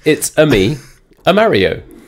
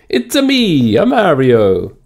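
First: It is said in the speaker's own voice. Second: It is said in a put-on Mario voice.

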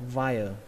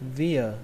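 First: The first vowel sounds like 'eye'. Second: The first vowel sounds like 'ee'. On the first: "Cách thứ hai là via" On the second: "Cách đầu tiên các bạn đọc là âm y nhé"

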